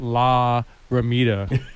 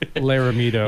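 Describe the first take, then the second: First: The name is split into two separate words. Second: The name runs together as one single word. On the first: The speaker calls it wrong. "It's not La Ramita" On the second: The speaker calls it right. "it's just one word"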